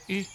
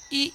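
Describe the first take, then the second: First: "いっ" cut short and relaxed; brief "いっ", not a clear i; short lax i. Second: "い" as a full, clear i; distinct Japanese "い" sound. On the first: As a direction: say "いっ" as a quick, loose i. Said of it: "て感じなんですね". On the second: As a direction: say "い" as a plain long-held i. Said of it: "どちらかというと、いというよりも". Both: Shown as a demonstration.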